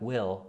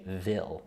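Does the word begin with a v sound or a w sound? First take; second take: w; v. First: The word begins with a w sound. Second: The word begins with a v sound. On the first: "instead of saying uh, wah like will" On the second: "they'll say vil"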